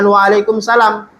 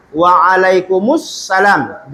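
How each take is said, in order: First: Waalaikumsalam run together as one word; joined form. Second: Waalaikumsalam said slowly with the vowels kept apart, not joined; wrong unjoined form. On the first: Teacher correcting students to joined waalaikumsalam. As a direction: blend waalaikumsalam smoothly. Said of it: "afdolnya waalaikumsalam". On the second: Teacher showing students the wrong Waalaikumsalam. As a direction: drag out Waalaikumsalam in separate parts. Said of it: "jangan waalaikumsalam". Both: Shown as a demonstration.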